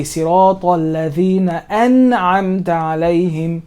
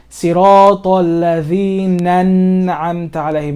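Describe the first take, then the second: First: Slow recitation with an'amta begun on a clear glottal catch; hamza pronounced. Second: Slow recitation with ladhina an'amta fused into ladhinan'amta; hamza wrongly skipped. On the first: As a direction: separate ladhina from an'amta with the hamza. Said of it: "No, I say". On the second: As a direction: swallow the hamza at the start of an'amta. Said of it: "I don't skip this. I don't say". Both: Shown as a demonstration.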